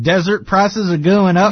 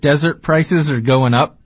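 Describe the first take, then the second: First: It is said in a Southern American accent. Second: It is said in a neutral accent.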